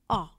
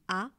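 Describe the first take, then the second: First: The vowel is the a sound heard in pâte. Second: The vowel is the ordinary French a sound. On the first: "Et le violet, c'est A, comme pâte" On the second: "le rectangle blanc, ça veut dire A comme Na Riman, comme A"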